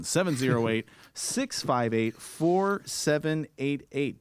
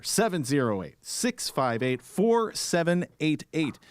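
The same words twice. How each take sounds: First: Each digit spelled out slowly; number read out slowly for listeners; slower, emphatic number repeat. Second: Slow, clear phone number. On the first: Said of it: "The number again". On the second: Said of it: "we still got that phone number". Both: Shown as a demonstration.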